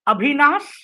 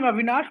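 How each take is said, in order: First: The name is said the Bihar way. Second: The name is said the Delhi way. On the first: "In Bihar, we'll call him Abhinas" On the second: "in Delhi, we call him Avinash"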